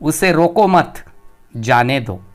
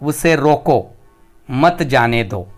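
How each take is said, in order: First: The pause comes after 'mat'. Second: The pause comes after 'roko'.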